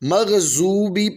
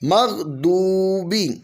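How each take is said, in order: First: The middle consonant is a z-like sound. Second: The middle consonant is a heavy d-like sound. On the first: The speaker calls it wrong. "इसको मग़ज़ूबी पढ़ना दुरुस्त नहीं है" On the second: The speaker calls it right. "इसको दौद पढ़ना ज़रूरी है"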